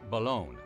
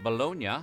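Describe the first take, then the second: First: The word is said in a shortened form. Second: The word is said in its full Italian form. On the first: "shortened to Bologna" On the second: "It could be that Bologna was shortened to"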